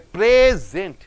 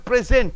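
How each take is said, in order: First: The stress is on the first syllable. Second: The stress is on the second syllable. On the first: It is a noun meaning a gift. "the nouns you are stressing on the first syllable" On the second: It is a verb meaning to give. "for the verbs you are stressing on the end syllable"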